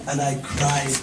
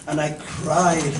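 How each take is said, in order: Both takes have the same delivery.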